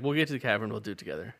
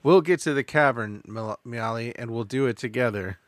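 First: Hurried, tossed-off promise; quick, flat throwaway delivery; rushed through. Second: Slow it down and linger; lingering, heartfelt romantic lead; slow, dramatic romantic. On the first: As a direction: race past the line, no weight. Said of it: "Whoa, whoa, whoa! You rushed right past that". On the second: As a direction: savor each word, tender hero. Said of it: "You rushed right past that". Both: Acted.

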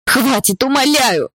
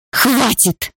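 First: High begging cry that breaks; pleading scream. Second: High cry, pitched way up; desperate scream. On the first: Girl begs the guards to stop, high pleading scream. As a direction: beg them to stop, screaming. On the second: Girl screams at stepfather to stop the beating, high cry. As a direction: shriek to make it stop. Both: A narrator's reading. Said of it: "закричала я".

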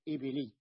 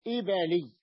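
First: إبلي with a short i after the b, "ibili"; wrong vowel. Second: إبلي louder, with a after the b, "ibali"; middle fatha. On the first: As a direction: say إبلي keeping kasra on the b. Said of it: "ولا يصح أن تقول إبلي". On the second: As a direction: punch out إبلي with an open a in the middle. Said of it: "بفتح". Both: Shown as a demonstration.

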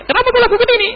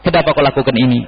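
First: High, pointed scolding question; mock sharp rebuke. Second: Said in the usual way. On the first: Shown as a demonstration. Preacher voicing the rebuke the Prophet never gave. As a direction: snap it like a scolding master.

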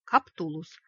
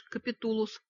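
First: Каптулус, said correctly with no и, firm and a bit louder; polite correction. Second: Капитулус with an extra и, Ка-пи-ту-лус; wrong name. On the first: Wolf politely corrects Vika: Каптулус, no extra и. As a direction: correct the name to Каптулус, courteous but firm. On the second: Vika mangling the wolf's name as Капитулус. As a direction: says Капитулус, inserting и after п. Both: Acted. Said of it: "вежливо поправил волк".

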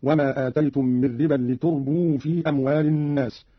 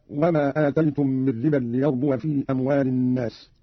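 First: لتربوا as li-turbū; Qalun reading. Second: Said in the usual way. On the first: Shown as a demonstration. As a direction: damma on the ta of لتربوا, silent waw. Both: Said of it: "قرأ قالون بالتاء مضمومة وإسكان الواو".

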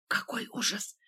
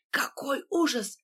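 First: Breathy whispered despair. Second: Slower, higher anguished cry. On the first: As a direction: whisper it in dismay. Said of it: "прошептал Фатьянов". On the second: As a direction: lose composure, cry it out. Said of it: "потеряв самообладание". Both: A narrator's reading.

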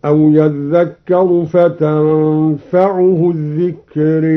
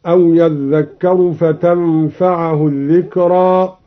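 First: فتنفعه stressed and drawn out, recited slowly; slow Quran recitation. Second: Said in the usual way. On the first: Shown as a demonstration. Teacher demonstrating the Douri reading, slow chanted recitation. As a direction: chant أو يذكر فتنفعه الذكر in slow tarteel. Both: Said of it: "هكذا".

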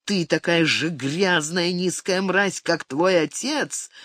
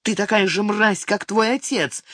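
First: Slow, measured echo of an insult; deliberate, drawn-out bitter recall; brooding recollection. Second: High-pitched angry insult; mother's narrated shrill outburst; shrieked insult. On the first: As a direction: repeat the insult slowly, dwelling on it. Son recalls mother's insult, brooding. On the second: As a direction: hurl it sharply in a high voice. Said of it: "взвизгнула мать". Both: A narrator's reading.

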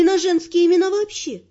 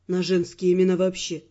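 First: Said in the usual way. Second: Low, unruffled man's voice; unblinking admission. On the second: A narrator's reading. Earl admitting to the heroine his bad memory, low and unabashed. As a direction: admit it evenly, pitched down. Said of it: "не моргнув глазом, признался Эрл".

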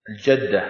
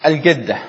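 First: الجدة with a soft j sound, al-jadda; classical jim. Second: الجدة with a hard g, al-gadda; Egyptian hard g. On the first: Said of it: "الجدة هكذا". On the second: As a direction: say الجدة with a hard g, Cairo style. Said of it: "نقول". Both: Shown as a demonstration.

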